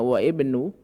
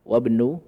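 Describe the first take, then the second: First: The hamzah is pronounced separately before ibnu. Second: The hamzah is dropped and the words are joined. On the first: The speaker calls it wrong. "itu seharusnya wa ibnu" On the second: The speaker calls it right. "Tapi dia hamzah wasal. Maka tidak bisa dibaca"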